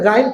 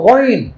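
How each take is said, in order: First: The letter name is said as 'gain'. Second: The letter name is said as 'ghoin'. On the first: The speaker calls it wrong. "আরবিতে গাইন কোনো হরফ নাই" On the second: The speaker calls it right. "এটা হলো গইন"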